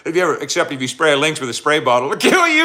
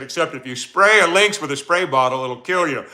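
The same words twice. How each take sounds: First: Emphatic warning. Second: Said in the usual way. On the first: Retold or imitated. Streamer to chat, repeating Eric's lynx warning with a loud punchline. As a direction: race through the spray bottle part, then slam "it'll kill you". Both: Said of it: "He said".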